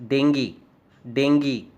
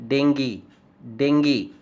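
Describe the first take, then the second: No difference in how they are said.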